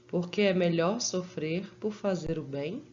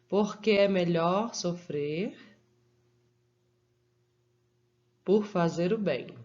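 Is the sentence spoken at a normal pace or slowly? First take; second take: normal; slow. First: It is spoken at a normal, flowing pace. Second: It is spoken slowly, with deliberate pauses.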